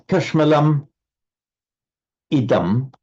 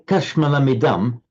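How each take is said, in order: First: The two words are said separately. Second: The two words flow together as one. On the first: "if you take the sandhi out" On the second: "but here"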